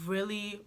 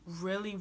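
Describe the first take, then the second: No difference in how they are said.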